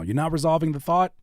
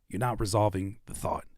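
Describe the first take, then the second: First: The voice rises at the end, like a question. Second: The voice falls at the end, resolved.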